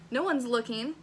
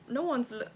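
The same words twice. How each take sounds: First: Said in the usual way. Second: Half-hearted British accent, abandoned midway; attempted British accent. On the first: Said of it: "we're not gonna do a British accent". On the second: Shown as a demonstration. Reading fanfic's Lewis aloud, tentative British accent. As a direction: try a British accent and give up. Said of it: "I should do a British accent".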